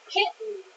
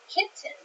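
First: The t is swallowed into an n sound. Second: The t sound is clearly pronounced. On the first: "讲话的速度比较快一点的时候，kitten 常常都会听起来像是kitten。发出一个N 的声音就好了" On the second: "所以老师会念的比较清楚"

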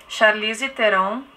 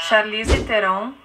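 Both takes have the same delivery.

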